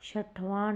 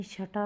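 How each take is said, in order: First: छठवां with the extra "vaan" ending; wrong form. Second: छठा short, ending in plain "aa"; corrected form. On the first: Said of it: "नहीं". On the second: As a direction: say छठा as "chha-tha". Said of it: "होगा". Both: Shown as a demonstration.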